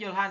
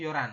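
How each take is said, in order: First: The middle h sound is clearly pronounced. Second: The middle h sound is dropped. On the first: This is how it is written. "Tulisannya Yolhan" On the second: This is how it is actually read. "dibacanya Yoran nanti"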